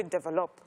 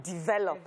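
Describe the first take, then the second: First: "Develop." with an open e-sound at the start, Nigerian style; Nigerian-accented "Develop.". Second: "develop," said with the standard dee- start; standard pronunciation. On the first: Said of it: "It's a Nigerian accent, say". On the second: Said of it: "Instead of". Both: Shown as a demonstration.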